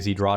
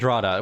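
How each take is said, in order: First: The name starts with a z sound. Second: The name starts with a d sound. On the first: "I would say Zdrada" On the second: "So I'm just going to say Drada"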